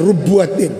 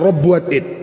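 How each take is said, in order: First: The first syllable has the vowel 'u'. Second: The first syllable has the vowel 'a'. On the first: "dengan dibaca dhammar ra-nya" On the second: "atau dibaca fathah ra-nya"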